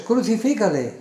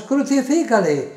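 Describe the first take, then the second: First: Raised, higher-pitched narrated shout; crowd shouting. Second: Much higher, louder crowd cry; louder crowd shouting. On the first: Crowd answering Pilato, narrated crowd shout. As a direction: call it out as the crowd, short of full force. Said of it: "volvieron a dar voces". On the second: Crowd insisting against Pilato, forceful narrated shout. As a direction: escalate the crowd's demand into a strong shout. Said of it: "ellos gritaban aún más". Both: A narrator's reading.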